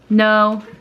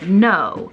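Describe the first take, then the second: First: The no is said in a neutral way. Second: The no is said in a mean way.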